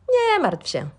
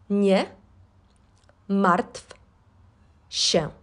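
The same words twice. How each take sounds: First: It is said at normal speed. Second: It is said slowly.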